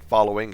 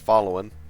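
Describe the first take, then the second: First: The word ends with a full G sound. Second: The word ends without the G sound. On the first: "instead of saying following" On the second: "always drops the G's at the end of words"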